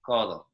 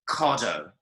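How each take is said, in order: First: The consonants are light and softly articulated. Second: The consonants are hard and strongly released. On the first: A fluent speaker is saying it. The speaker calls it right. "So it's very, very soft" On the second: A foreign speaker is saying it. The speaker calls it wrong. "a foreign speaker would say el codo"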